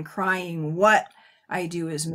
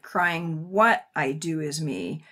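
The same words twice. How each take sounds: First: "crying" clipped to one beat, then "What" stressed. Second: Said in the usual way. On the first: Shown as a demonstration. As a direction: hit "What" hard, "crying" said as one syllable. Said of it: "aligning that to one". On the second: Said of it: "crying could be two syllables".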